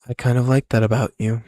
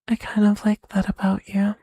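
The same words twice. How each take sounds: First: It is said in the speaker's own voice. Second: It is said in a put-on Yuri voice.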